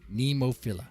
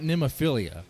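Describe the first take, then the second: First: The ending has no 'ee' sound: fill-a. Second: The ending has an extra 'ee' sound: fill-ee-a. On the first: The speaker calls it right. "it's phila" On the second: The speaker calls it wrong. "It's it's not Nemophilia"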